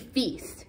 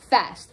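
First: The vowel is long, rhyming with beast. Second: The vowel is short, rhyming with best. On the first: The speaker calls it wrong. "it looks like it should be feast" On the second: The speaker calls it right. "because it's rhymed with best, you know it's pronounced fest"

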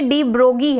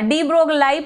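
First: The name is said without an L sound. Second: The name is said with an L sound. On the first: The speaker calls it right. "लेकिन ये डी ब्रोगी है, एल silent है इसमें" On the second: The speaker calls it wrong. "हाँ डी ब्रोगलाई पढ़ोगे"

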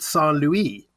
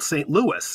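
First: The name is said with a French pronunciation. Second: The name is said with an American English pronunciation. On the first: This is the original name from the founders. "They called it Saint Louis" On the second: This is the name used locally today. "It's now called St. Louis in good American English"

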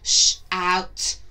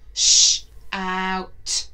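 First: The two sounds are said quickly, close together. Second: The two sounds are said slowly, well apart.

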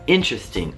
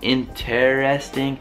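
First: The E after t is dropped, three syllables. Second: The E after t is pronounced, four syllables. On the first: "la E si toglie" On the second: "interesting si può dire"

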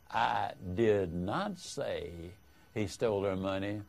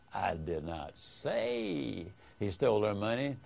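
First: The stress falls on the word 'not'. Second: The stress falls on the word 'say'. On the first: The speaker firmly denies saying it. "is a vigorous denial that you said it" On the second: The speaker may have implied it without saying it. "hints that you might have implied it, but you didn't say it"

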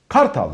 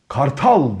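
First: The stress is on the first syllable. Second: The stress is on the last syllable. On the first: It means the Istanbul district. "Vurgu değişiyor" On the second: It means the eagle, the bird. "Kuş anlıyorsun tabii"

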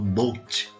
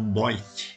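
First: The vowel is a plain standard 'oh' sound. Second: The vowel is an Australian-style 'oi' sound. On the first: "eles não falam boat para barco" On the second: "eles falam boit"

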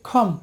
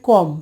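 First: The first consonant has a strong puff of air. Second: The first consonant has no puff of air. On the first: The speaker calls it right. "যেটা সঠিক উচ্চারণ হচ্ছে খম" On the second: The speaker calls it wrong. "এই যে কম"

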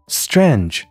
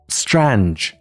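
Both takes have the same delivery.

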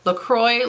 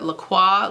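First: It is pronounced like the English sparkling-water brand. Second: It is pronounced the French way. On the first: "like the water, like the sparkly water" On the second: "like the actual French way that you pronounce it"

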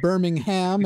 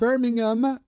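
First: It is pronounced the American way. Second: It is pronounced the British, local way. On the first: "as we have here in the US" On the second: "pronouncing it the way I know you folk, you Brummies prefer"

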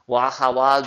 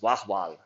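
First: The middle vowel is pronounced. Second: The middle vowel is dropped.

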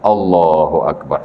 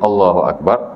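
First: It is stretched out slowly and long. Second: It is said short and quick.

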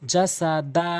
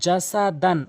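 First: The word ends on a long a without n. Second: The word ends with an n sound. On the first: The reader stops at this word. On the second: The word is read as spelled, without stopping.

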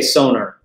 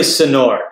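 First: The name is said with an American pronunciation. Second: The name is said with a native-style pronunciation. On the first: This is the speaker's habitual, easier way. The speaker calls it wrong. "I say Sonor" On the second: This is how the name really sounds. The speaker calls it right. "but it's really Sonor"

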